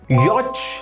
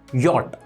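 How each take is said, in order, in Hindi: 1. इस शब्द का अंत 'ch' की आवाज़ से होता है। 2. इस शब्द का अंत 't' की आवाज़ से होता है। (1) "नो" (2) "ये पढ़ा जाता है यॉट"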